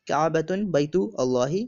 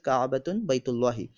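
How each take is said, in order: First: The last two words are said separately. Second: The last two words are run together.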